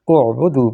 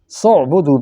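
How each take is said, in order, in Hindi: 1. यह शब्द अपने ही u स्वर से शुरू होता है। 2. शुरू का स्वर खामोश है, पिछले स से जुड़ जाता है। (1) "यकीनन पेश लगा के, ज़म्मा लगा के शुरू करते" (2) "सीन को ऐन के साथ मिला दिया, दरमियान वाले हमज़ा अमर को साइलेंट कर दिया है"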